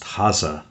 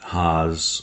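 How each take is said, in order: First: The name ends with a spoken final e. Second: The name is said as one syllable. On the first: This is the original German form of the name. "or properly pronounced Hase in Germany" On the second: This is the Americanized form of the name. "I mentioned the fact that Haas"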